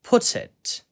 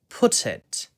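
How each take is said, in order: First: The middle t is clear and crisp. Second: The same.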